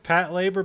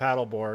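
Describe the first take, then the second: First: It is said as two separate words. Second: It is said as one blended word. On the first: "I think it's pat labor" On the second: "I always call it paddleboard because it makes more sense as like one word"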